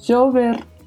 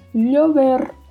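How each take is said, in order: First: The first consonant sounds like a soft 'zh'. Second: The first consonant sounds like a palatal 'ly'. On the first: "som de J" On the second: "som de LH"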